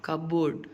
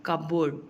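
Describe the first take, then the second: The two takes are said the same way.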